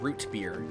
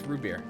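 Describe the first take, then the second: First: The T at the end of root is pronounced. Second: The T is dropped and it is said fast. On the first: The speaker calls it wrong. "It's not root beer" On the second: The speaker calls it right. "You don't really pronounce the T in root. You just kind of say it fast"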